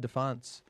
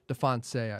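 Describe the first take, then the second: First: The name is said with an English-style pronunciation. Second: The name is said with a French-style pronunciation. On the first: The speaker calls it wrong. "I think I said it wrong" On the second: The speaker calls it right. "I should say"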